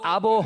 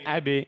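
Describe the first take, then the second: First: The final echo is heavy, leaning toward 'o'. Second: The final echo is thin, leaning toward 'e'. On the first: The speaker calls it wrong. "আবো হবে না" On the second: The speaker calls it right. "নিচের দিকে যাবে, উপরে না"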